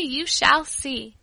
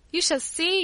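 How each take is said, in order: First: Stretched out slowly, leaning on the words; slow emphatic repeat. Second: Quick, bright promise with a rising end; a child insisting on the wonders of her grandfather's house; eager exclaim. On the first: Child repeating her promise to her cousin, slowly and firmly. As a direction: drive the promise home, unhurried. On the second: Child bragging to her cousin, eagerly. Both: Acted. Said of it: "I exclaimed".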